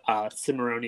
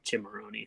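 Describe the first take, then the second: First: The name begins with an s sound. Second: The name begins with a ch sound. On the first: This is the American way of saying the name. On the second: This is the Italian way of saying the name.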